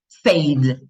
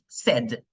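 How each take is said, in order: First: The vowel is long and gliding. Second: The vowel is short, like in 'bed'. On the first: The speaker calls it wrong. "Mucha gente lo lee y dice said" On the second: The speaker calls it right. "esa I es muda, no se pone. Said, como tengo sed"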